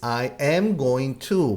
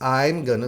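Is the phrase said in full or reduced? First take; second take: full; reduced. First: Each word is said separately and in full. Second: It is said quickly with the words run together.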